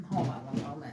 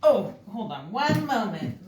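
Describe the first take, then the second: First: Softer, muttered aside; quiet aside. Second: Said in the usual way. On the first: Real, not acted. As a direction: drop the voice for a quick aside.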